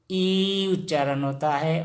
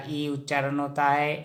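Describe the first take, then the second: First: ई held long before उच्चारण; sustained ee on ई. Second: ई said briefly, then straight on; quick, unstretched ई; short i. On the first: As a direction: stretch the ई out. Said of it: "और बड़ा ई से हमेशा". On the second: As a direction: keep the ई short before उच्चारण. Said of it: "छोटा ई से हमेशा". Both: Shown as a demonstration.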